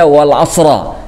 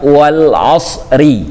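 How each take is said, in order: First: The last word ends in the vowel a. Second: The last word ends in the vowel i. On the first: The speaker calls it wrong. "juga tidak dibaca wal asra" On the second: The speaker calls it right. "dibacanya wal asri"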